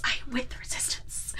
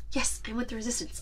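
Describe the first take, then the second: First: Fluistert om zichzelf te overtuigen; unsure, whispered to himself; whispered self-convincing. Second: Self-convincing mumble. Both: Retold or imitated. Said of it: "trying to convince himself".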